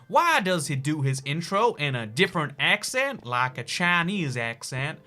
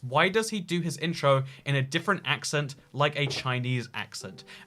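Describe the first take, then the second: First: It is read in an imitated foreign accent. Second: It is read in the speaker's normal accent.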